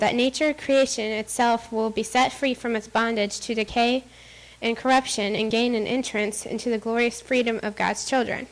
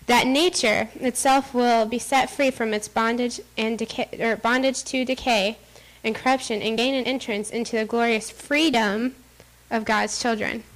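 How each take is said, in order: First: It is read at a normal pace. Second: It is read more slowly.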